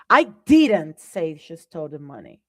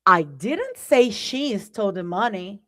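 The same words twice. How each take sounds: First: I stressed, the rest falling. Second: Didnt lifted, another reading of the line; change which word carries the weight; a different intonation of the same sentence; shifted stress. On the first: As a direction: put the weight on the word I. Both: Shown as a demonstration. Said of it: "Same words, different message".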